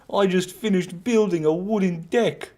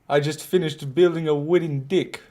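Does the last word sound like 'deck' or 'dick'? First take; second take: deck; dick. First: The last word has the vowel of 'deck'. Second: The last word has the vowel of 'dick'. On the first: "How's that?" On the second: "New Zealand accent pronounces deck as dick"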